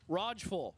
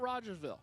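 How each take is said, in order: First: The name is clipped to a short two-syllable form. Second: The name is said in full, three syllables. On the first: The speaker calls it right. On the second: The speaker calls it wrong.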